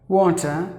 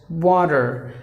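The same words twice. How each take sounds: First: The middle consonant is a crisp T sound. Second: The middle consonant is a soft D sound. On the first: "That's the British English" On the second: "giving the T a D sound"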